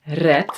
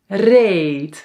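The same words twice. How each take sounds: First: "red" with short e, ending in t; "red" with quick "eh" and final t; short vowel. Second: "reed" as a long "rayt"; long Dutch ee in "reed", final t; long vowel. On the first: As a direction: say "red" as a brief "ret". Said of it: "we pronounce it as a T". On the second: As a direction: draw out the ee in "reed" like "ay", ending in t. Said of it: "for a long sound". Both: Shown as a demonstration.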